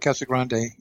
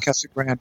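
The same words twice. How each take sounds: First: It is pronounced with Spanish-style vowels. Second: It is pronounced with English-style vowels. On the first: This is the less common local form. "Very few people here really call it Casa Grande" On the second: This is the common local form. "It's anglicized completely"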